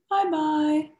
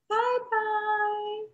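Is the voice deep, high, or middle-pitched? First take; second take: middle-pitched; high. First: It is said in a middle-sized voice. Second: It is said in a high, squeaky voice.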